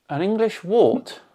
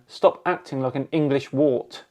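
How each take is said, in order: First: "An English wart?" echoed back higher with a rising, disbelieving tune; incredulous echo. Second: Said in the usual way. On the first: Real, not acted. Repeating the commenter's odd insult back in disbelief, higher and rising. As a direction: lift "wart" in baffled disbelief.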